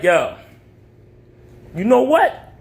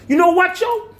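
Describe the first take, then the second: First: It is said in his normal voice. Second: It is said in Hustle Man's voice.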